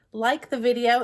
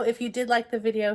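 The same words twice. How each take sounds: First: Said in the usual way. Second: Like stressed, video plain. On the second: Shown as a demonstration. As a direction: lean on the word like.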